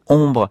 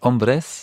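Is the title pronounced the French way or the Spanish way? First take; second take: French; Spanish. First: The word is said with a French pronunciation. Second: The word is said with a Spanish pronunciation.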